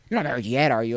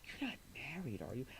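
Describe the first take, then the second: First: It is said in a worried, concerned tone. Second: It is said in a hopeful, flirtatious tone.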